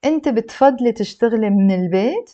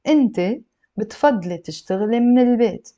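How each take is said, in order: First: أنت بتفضلي تشتغلي من البيت asked, البيت rising sharply; question tune. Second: أنت بتفضلي تشتغلي من البيت said as a statement, falling at the end; statement tune. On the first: Arabic teacher changing the voice for students, rising question tune. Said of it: "if I change my voice and I say". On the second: Arabic teacher showing students a statement, falling tune. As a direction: let البيت drop to close a firm statement. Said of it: "if I change my voice". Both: Shown as a demonstration.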